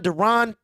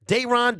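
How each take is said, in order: First: Deron with a reduced first syllable, duh-RON; Deron, high, weak "duh" before RON; alternative pronunciation. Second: Dayron with a long DAY at the start; Dayron, high and with a full first vowel; alternative pronunciation. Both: Shown as a demonstration. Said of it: "however you say it".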